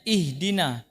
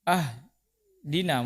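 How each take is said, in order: First: The word begins with an i vowel. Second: The word begins with an a vowel. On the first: The speaker calls it right. "padahal kasroh" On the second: The speaker calls it wrong.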